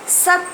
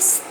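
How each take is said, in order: First: A full vowel sounds after the s. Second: The s joins the t with no vowel. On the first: The speaker calls it wrong. "इसको हम लोग सत नहीं पढ़ेंगे क्योंकि स आधा है" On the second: The speaker calls it right. "स का उच्चारण कम होगा क्योंकि ये आधा है"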